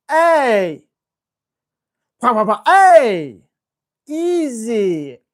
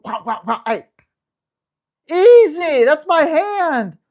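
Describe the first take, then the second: First: Loud, slow, higher warning at the dog; loud firm hey, then easy; sharp correction. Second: Sudden loud, higher yelp building to a firm slowed warning; loud startled correction, slowing at the end; startled yelp at dog. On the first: Shown as a demonstration. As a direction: bark it out to stop the grab. Demonstrating correction for grabby dog. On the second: Retold or imitated. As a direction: snap at the dog grabbing your hand. Hand bitten while feeding dog.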